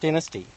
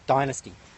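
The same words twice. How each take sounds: First: It is said with an Australian accent. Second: It is said with an American accent.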